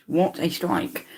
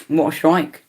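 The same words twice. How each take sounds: First: Softer and slower, savouring it; slow hushed replay of the praise; quiet slow echo. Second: Said in the usual way. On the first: Real, not acted. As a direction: repeat the line under your breath, admiring. Goal replay, said once then echoed.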